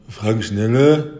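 The name is said in a flat, offhand tone. The caller gets an indifferent, unmotivated greeting. The speaker calls it wrong. "Also nicht einfach so sagen"

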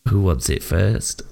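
It sounds very creepy.

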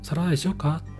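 It sounds kind and caring.

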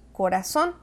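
It is said with a Latin American accent.

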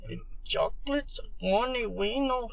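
It is said in a Chicano accent.

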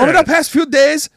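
It is read in an imitated Chinese accent.

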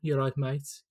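It is said in a Birmingham accent.

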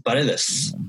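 The name is said with a Spanish pronunciation. The speaker calls it right. "pronounce my name the way I think it's supposed to"

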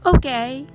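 It is said with mild, surprised approval. It is better than expected. "思ったよりまあまあいい味だったとき"

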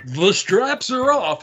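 It is said like a showy stage announcer. "like a Las Vegas entertainer"

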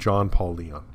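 The name is said with American pronunciation. The speaker calls it right. "very American pronunciation of the name"

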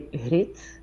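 The first sound is said the West Flemish way. This is how the speaker's own family says it. "So my parents and I would say Grit"

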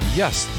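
The word starts with a Y sound. "he says just instead of"

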